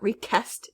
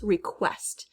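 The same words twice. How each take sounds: First: The middle consonant is a plain k sound. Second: The middle consonant is a kw sound. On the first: The speaker calls it wrong. "It's not request" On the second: The speaker calls it right. "we hear the Q, right? The Q U, not as just a K"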